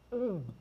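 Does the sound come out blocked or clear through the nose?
blocked. The hum is muffled with the nose held shut.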